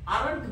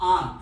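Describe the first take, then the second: First: It is said with an r sound. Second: It is said with no r sound. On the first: The speaker calls it wrong. "आरंट म्हणू नका" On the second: The speaker calls it right. "वाचा आंत"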